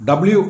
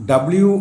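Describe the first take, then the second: Both takes have the same delivery.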